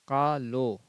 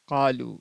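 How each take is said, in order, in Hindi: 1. इस शब्द के अंत में 'oh' स्वर है। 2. इस शब्द के अंत में लंबा 'oo' स्वर है। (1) "इसे कालो पढ़ते हैं, जो कि गलत है" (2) "लाम वाव पेश लू"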